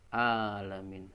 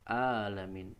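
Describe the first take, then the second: The two takes are said the same way.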